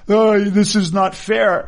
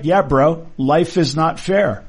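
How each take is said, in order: First: Drawn-out, higher-pitched mock whine; mock crying. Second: Said in the usual way. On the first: Doctor protesting to colleagues at hospital meeting, mock crying. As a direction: imitate a doctor whining in tears. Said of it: "one of the doctors started crying". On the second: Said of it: "And I'm like".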